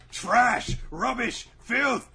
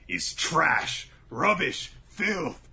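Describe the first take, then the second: First: Higher, louder, building to a shriek; climbing mock-villain rant, much higher and louder; rising rant. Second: Stern chant. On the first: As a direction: drive each word harder, up into a cry. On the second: Retold or imitated. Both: Voicing Azami's cruel lesson.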